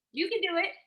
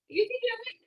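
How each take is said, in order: First: Bright, high cheer of belief; encouraging. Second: Even higher, louder call of belief; rallying cheer. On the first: A coach urging nervous sellers on, in an eager high cheer. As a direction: lift them up with a rising push. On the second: A coach urging nervous sellers on, in a soaring excited cheer. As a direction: really sell it with a soaring push. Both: Real, not acted.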